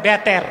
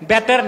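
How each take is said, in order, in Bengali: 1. শব্দটি B ধ্বনি দিয়ে শুরু হয়। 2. শব্দটি B ধ্বনি দিয়ে শুরু হয়।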